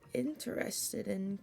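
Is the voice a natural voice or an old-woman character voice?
old-woman. It is read in an old woman's voice. The speaker calls it right.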